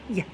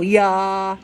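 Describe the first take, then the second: First: The y sound is short and clipped. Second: The y sound is long and drawn out. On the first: The speaker calls it right. "Try and keep it really short" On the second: The speaker calls it wrong. "Don't go yeah"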